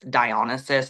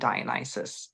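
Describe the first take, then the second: First: The name is given its Greek pronunciation. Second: The name is given its British pronunciation. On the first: "that's the Greek pronunciation" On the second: "the British tradition is is to to to call him Dionysus"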